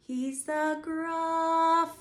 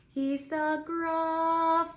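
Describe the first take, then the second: First: Gruffalo sung higher and long; slow higher sung line; pitch getting higher. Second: Gruffalo drawn out very long and higher; slow sung Gruffalo, higher; really long Gruffalo. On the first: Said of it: "our pitch is getting higher". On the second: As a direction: stretch the word Gruffalo slowly. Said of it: "really, really long". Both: Shown as a demonstration.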